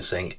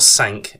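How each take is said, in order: First: The word sounds like 'sink', with a short i. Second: The word sounds like 'sank', with a French-like vowel. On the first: The speaker calls it right. "it is pronounced sink as in the kitchen sink" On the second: The speaker calls it wrong. "not sank as in the French for the number five"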